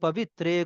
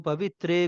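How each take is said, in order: The two takes are said the same way.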